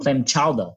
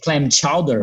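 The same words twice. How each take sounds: First: The final R becomes an 'ah' sound, Boston-style. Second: The final R is pronounced.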